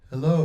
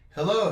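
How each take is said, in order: First: The voice sounds boomy, low and muddy. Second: The voice sounds flat with boosted middle tones. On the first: "if I pump up the low end ... low and muddy" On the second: "if I go to the midtones and pump those up ... hear how flat that sounds?"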